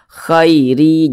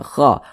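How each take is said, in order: First: The vowel glides softly from a to i. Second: The vowel is a plain a sound. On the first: The speaker calls it right. "dibaca lunak saja mudah" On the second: The speaker calls it wrong. "jangan kha"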